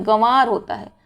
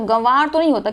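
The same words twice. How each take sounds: First: गंवार with only a nasalised vowel; correct pronunciation. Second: गंवार with a full m sound, "gamvaar"; wrong pronunciation. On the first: Teacher correcting it, light nasal form. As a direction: soften गंवार to "ga-waar". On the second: Teacher quoting the mistake, hard nasal form. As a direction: close on m in गंवार. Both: Shown as a demonstration.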